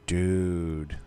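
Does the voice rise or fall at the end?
rise. It rises at the end like a question.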